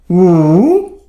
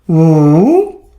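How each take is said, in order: First: It is said with the third tone. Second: The same.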